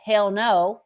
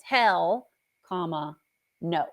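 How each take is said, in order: First: "Hell no" run together as one loud burst; "Hell no" blurted without a break; hell no with exclamation. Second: "Hell," rising, then a pause, then "no."; "Hell" lifted and held, a beat, then "no" dropped; hell comma no. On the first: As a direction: say "Hell no" as a single punched exclamation. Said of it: "with an exclamation". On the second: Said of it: "It's important where you put a comma". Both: Shown as a demonstration.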